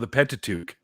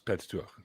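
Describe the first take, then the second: First: The ending sounds like the hat word 'tuque'. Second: The ending does not sound like 'tuque'. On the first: The speaker calls it wrong. "like it's a five-sided hat that Canadians wear" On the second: The speaker calls it right. "That's the actual pronunciation"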